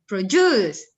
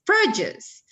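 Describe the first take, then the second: First: Produce said as rodjus, falling; produce, plain fall. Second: Produce with a clear pro; produce, full pro said brightly. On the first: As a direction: produce with a dropped first sound. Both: Shown as a demonstration.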